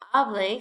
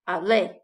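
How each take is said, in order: First: The stress is on the first syllable. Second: The stress is on the last syllable. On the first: "stress on the A" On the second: "stress on the E"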